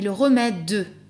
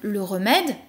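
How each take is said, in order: First: The final e of remède is pronounced. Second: The final e of remède is silent. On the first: The speaker calls it right. "mais ... Et le mot aura trois syllabes" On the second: The speaker calls it wrong. "On ne dira pas donc"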